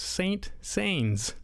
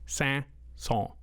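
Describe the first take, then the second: First: It is said with English-style sounds. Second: It is said with French-style sounds. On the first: The speaker calls it wrong. "because that's what it looks like" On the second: The speaker calls it right. "I do know it's pronounced Saint-Saëns"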